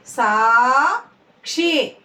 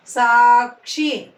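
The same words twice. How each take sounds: First: "Sakshi" split, long rising సా, then క్షి; "Sakshi" in two separate syllables. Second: Said in the usual way. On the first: Shown as a demonstration. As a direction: slowly sound out "Sakshi" with a gap. Teacher sounds out syllables.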